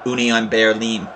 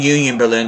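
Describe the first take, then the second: First: It is said with a German pronunciation. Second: It is said with an English pronunciation. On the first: The speaker calls it right. "supposed to be pronounced Union Berlin if you're German" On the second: The speaker calls it wrong. "I'm just saying it the English way"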